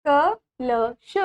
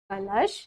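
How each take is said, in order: First: Each syllable of कलश drawn out very slowly. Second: Said in the usual way. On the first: Shown as a demonstration. Teacher sounding out कलश slowly for the children. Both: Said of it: "Again पढ़ेंगे ma'am के साथ".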